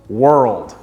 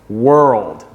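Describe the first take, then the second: The two takes are said the same way.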